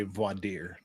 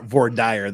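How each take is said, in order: First: "voir dire" as vwah-deer; French-style pronunciation. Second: "voir dire" as vor-dyer; Utah pronunciation. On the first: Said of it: "I also say voir dire as". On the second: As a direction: rhyme "dire" in "voir dire" with "fire". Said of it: "the way God meant us to pronounce it". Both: Shown as a demonstration.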